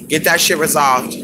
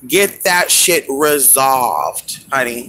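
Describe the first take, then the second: First: Said in the usual way. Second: Slow emphatic advice. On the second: Real, not acted. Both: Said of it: "Honestly, you guys".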